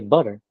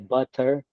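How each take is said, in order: First: The middle T is silent. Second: The middle T is clearly pronounced. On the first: This is how West Coast speakers say it. "it's kind of a silent T" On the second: This is how Midwest and East Coast speakers say it. "they pronounce the T"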